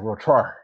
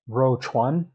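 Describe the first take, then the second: First: The second syllable ends with an 'r' sound. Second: The second syllable ends with an 'n' sound. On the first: "up here with the Dongbei, the Northeast dialect, they say" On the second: "the standard Putonghua Mandarin pronunciation"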